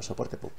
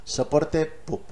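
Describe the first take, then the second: First: "soporte pub" whispered softly; whispered repeat. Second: Soporte pub with pub lifted high; stressing the name. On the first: Repeating the name for viewers in a whisper. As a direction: breathe "soporte pub" as an aside. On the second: Explaining the support site to viewers, stressing pub. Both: Shown as a demonstration. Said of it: "Que quede claro".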